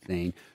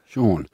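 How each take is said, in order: First: The name is said like 'seen'. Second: The name is said like 'shawn'. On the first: The speaker calls it wrong. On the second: The speaker calls it right.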